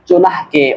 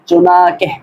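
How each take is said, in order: First: A nasal sound is heard before the k. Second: No n sound is heard before the k. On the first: The speaker calls it wrong. "আমরা অনেকেই ভুল করে থাকি, এখানে আমরা বলে থাকি চুনাহকে" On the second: The speaker calls it right. "বরং উচ্চারণ হলো এরকম চুনাকে, অর্থাৎ দ্বিতীয় নুনটা উচ্চারণ হবে না"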